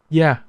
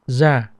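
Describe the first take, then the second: First: The word begins with a y sound. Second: The word begins with a z sound. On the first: This is the southern pronunciation. "the southern will pronounce it as yeah" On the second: This is the northern pronunciation. "the northern would pronounce it as za"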